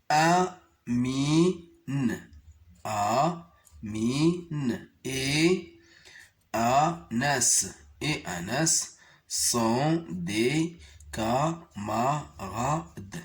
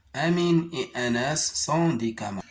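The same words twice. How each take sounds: First: Mot à mot, très lentement; lecture très lente. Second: Phrase lue d'un trait, rapidement; enchaîne la phrase sans t'arrêter; lecture rapide. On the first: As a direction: lis chaque mot en le détachant. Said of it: "On va essayer de les lire". (lecture syllabée très lente) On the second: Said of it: "de la lire correctement". (lecture fluide et rapide) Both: Shown as a demonstration.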